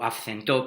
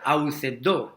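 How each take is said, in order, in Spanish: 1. El verbo usa la pronunciación griega moderna. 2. El verbo usa la pronunciación erasmiana. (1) "en la pronunciación greca" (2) "perdón"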